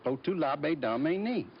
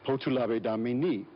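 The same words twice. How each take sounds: First: It is said with a Southern accent. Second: It is said without a Southern accent. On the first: The speaker calls it wrong. "how come mine doesn't sound like yours?" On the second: The speaker calls it right. "the speech teacher said"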